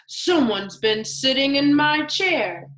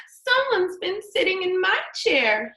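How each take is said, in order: First: Lightly voiced gruff Daddy Bear, a bit louder; mock growl. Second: Put-on high little baby bear voice, much higher; baby bear crying out. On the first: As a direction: grumble it like the big father bear. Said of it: "he growled". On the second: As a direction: wail it as the tiny bear. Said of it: "he cried".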